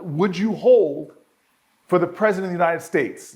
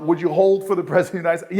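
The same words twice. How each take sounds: First: Formal operator voice. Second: A fast, amused parody of the operator's question; quick mocking repeat. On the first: Retold or imitated. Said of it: "the person on the other side of the phone says". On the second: Mayor recounting the call, a quick mocking echo of the operator. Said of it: "And I'm like".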